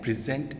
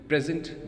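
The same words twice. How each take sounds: First: The stress is on the second syllable. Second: The stress is on the first syllable. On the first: It is used as a verb. "is the word" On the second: It is used as a noun. "that is the noun"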